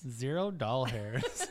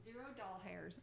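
First: Laughing. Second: "doll hairs" said as two words, doll and hairs; "doll hairs" for dollars, spelled out as two words; joke pronunciation. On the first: Real, not acted. Repeats joke, laughing. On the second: Pretend. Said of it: "playful mispronunciation of dollars".

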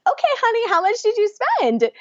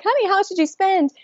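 First: Much higher, sugary insistence; insisting. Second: High sweet but pointed ask; pointed question. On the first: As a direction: repeat the question sweetly but firmly. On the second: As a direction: press your husband with a high sweet voice. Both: Retold or imitated. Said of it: "I'm like".

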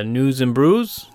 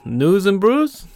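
First: Said in the usual way. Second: High-pitched, drawn-out bad Boston accent; slow it right down and pitch up a hammy Boston accent; badly faked Boston accent, rising like a question; terrible Boston accent. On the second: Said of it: "that's a terrible Boston accent".

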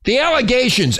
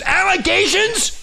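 First: Said in the usual way. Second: High, slow, disbelieving question; incredulous. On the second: Real, not acted. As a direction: echo it back in disbelief. Throws the word back incredulously.

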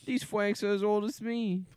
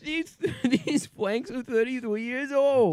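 First: "fwanks" said with a w instead of an l; fwank pronunciation. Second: "flanks" said with a clear l; correct flank pronunciation. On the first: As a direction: say "fwanks" as fwanks, the l turned to w. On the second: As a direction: say "flanks" with a proper l sound. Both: Pretend. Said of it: "Sorry, fwank".

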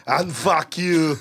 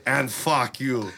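First: Slow, full-voiced Austrian cursing; deliberate action-hero put-down; Arnold. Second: Slow Austrian-accented cursing; drawn-out action-hero put-down; feed the line as a Terminator impression; Arnold. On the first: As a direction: copy the drawn-out cyborg insult. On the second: Shown as a demonstration. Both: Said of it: "hey, say".

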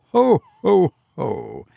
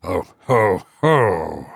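First: High ho-ho falling away; acted laugh. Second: Low, hollow ho-ho-ho; goblin's mocking echo. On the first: Sexton over his Christmas box joke, laughing. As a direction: start the laugh high and let it drop. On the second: Unseen voice close beside him, echoing the laugh deeply. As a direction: echo the laugh back in a deep voice. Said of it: "repeated a voice close beside him". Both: A narrator's reading.

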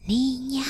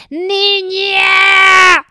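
First: Tree whispering. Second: Calling out loud and high; shouted call. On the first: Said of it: "El árbol le susurró". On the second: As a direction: shout her name across the distance. Tree calls out to unhearing woman. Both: Acted.

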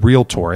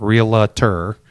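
First: Realtor said in two syllables, REEL-tor; correct pronunciation. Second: Realtor drawn out in three syllables, REE-luh-ter; mispronunciation. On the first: Agent teaching viewers how you pronounce the word, realtor as REEL-tor. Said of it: "that is how you pronounce". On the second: Agent showing those who mispronounce, realtor wrongly as REE-luh-ter. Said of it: "It's not realtor". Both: Shown as a demonstration.

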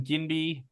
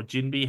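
First: "Ginby" with a hard G. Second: "Ginby" with a soft G, like Jinby. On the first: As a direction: say "Ginby" starting with G as in give. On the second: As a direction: say "Ginby" starting with a J sound. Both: Real, not acted. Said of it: "however the fuck you say it".

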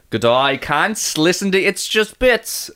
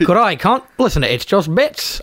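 First: Slow, stretched Aussie greeting; confident put-on Aussie; Australian accent. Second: Put-on Aussie, fairly level; mock Australian attempt; Australian accent. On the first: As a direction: demonstrate a broad Australian accent. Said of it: "I think I got this one actually". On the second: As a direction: try the Australian greeting yourself. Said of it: "do that, but better". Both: Shown as a demonstration.

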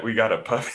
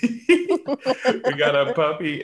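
First: Said in the usual way. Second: Slow, laughing through the words. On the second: Real, not acted. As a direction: laugh while repeating it. Repeats the news laughing.

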